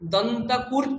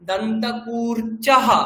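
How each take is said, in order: First: The word ends on a bare consonant. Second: The word ends on a full vowel and breath. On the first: The speaker calls it wrong. "দন্তকূর্চ হবে না" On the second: The speaker calls it right. "সবগুলোর উচ্চারণ করতে হবে"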